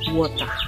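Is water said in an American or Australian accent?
Australian. It is said in an Australian accent. "Orang Aussie itu mereka menyebutnya dengan water"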